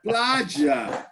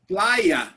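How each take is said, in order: First: It is said with an Argentinian accent. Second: It is said with a standard Spanish accent. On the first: The speaker calls it wrong. "they say plaja" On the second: The speaker calls it right. "Everybody says playa"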